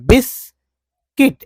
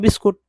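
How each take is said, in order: First: The last syllable is said as 'kit'. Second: The last syllable is said as 'kut'. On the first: The speaker calls it right. "यहाँ पर बिस्किट बोलना है" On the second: The speaker calls it wrong. "लोग बोलते हैं बिस्कुट, लेकिन कुट नहीं बोलना है"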